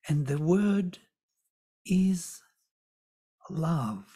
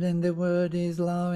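First: The speaker pauses just before 'love'. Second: The speaker goes straight into 'love'. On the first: The listener is made to wait for and anticipate the key word. The speaker calls it right. "when I make pause before, and the word is, you're waiting for what is the word?" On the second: The key word passes by without being noticed. The speaker calls it wrong. "If you don't, ... You don't hear it"

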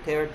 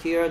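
First: The vowel sounds like the one in 'air'. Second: The vowel sounds like the one in 'ear'. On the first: To rip something apart. "찢다" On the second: Drops of water from crying. "눈물"

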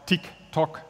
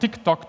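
First: The tick-tock is said at a moderate pace. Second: The tick-tock is said at a fast pace.

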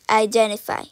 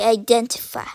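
First: The T sound in the middle is dropped. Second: The T sound in the middle is clearly pronounced. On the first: The speaker calls it right. "Stay identify" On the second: The speaker calls it wrong. "Stop pronouncing the T in English. Don't say identify"

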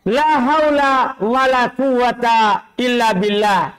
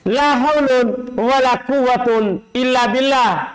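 First: The nouns end in a short a vowel. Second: The nouns end in an -un sound. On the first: The particle la governs the nouns. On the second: The particle la does not govern the nouns. "Tidak beramal"

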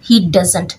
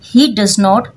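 First: The negative is a weak, unstressed contracted form. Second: Does and not are said fully, as two words.

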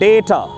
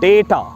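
First: The first vowel sounds like 'ay'. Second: The same.

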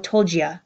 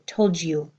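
First: The last word is reduced to a short 'ya'. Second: The last word ends in a full 'you' vowel. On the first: "or told ya"

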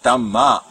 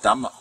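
First: The 'a' vowel is said long. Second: The 'a' vowel is said short. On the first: The speaker calls it right. "Dhamma with long A" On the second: The speaker calls it wrong. "Not Dhamma"

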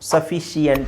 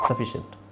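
First: The ending is split into two syllables. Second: The ending is one syllable, 'shunt'. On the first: The speaker calls it wrong. "ಸಫಿಷಿಯಂಟ್ ಅಂತ ಹೇಳ್ತೀರಾ? ಇಲ್ಲ" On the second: The speaker calls it right. "ಸಫಿಷಂಟ್ ಆಗಿದೆ"

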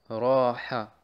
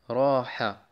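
The two takes are said the same way.

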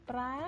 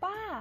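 First: The syllable is said with the mai tri tone. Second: The syllable is said with the mai tho tone. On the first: "ตี" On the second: "โท"

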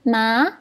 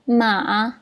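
First: The pitch rises from mid to high. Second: The pitch stays low in the voice. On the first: "Dia dari sederhana terus naik tinggi" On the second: "Nada ketiga, ingat dia rendah, rendah"

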